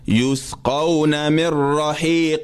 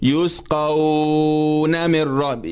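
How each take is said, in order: First: The 'aw' sound is kept short. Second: The 'aw' sound is drawn out long. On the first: The reader continues without stopping on the word. The speaker calls it right. "You're gonna read it this way when you're moving on" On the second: The lengthening meant for stopping is wrongly kept while continuing. The speaker calls it wrong. "If you do that, it's wrong"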